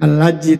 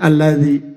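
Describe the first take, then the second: First: The middle consonant sounds like a 'j'. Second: The middle consonant sounds like a 'dh'. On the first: The speaker calls it wrong. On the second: The speaker calls it right.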